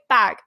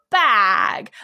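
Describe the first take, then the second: First: The vowel is short and plain. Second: The vowel is a long, drawn-out ah.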